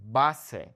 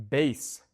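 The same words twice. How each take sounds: First: Base as BAH-seh; Spanish "Base" in two syllables; Spanish pronunciation. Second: Base as one syllable, BAYS; English "Base" with a long ay; English pronunciation. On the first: Teacher changes only the vowels, Base as Spanish BAH-seh. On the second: Teacher shows the English vowels, Base as BAYS. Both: Shown as a demonstration. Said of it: "changing the way I'm pronouncing the vowels".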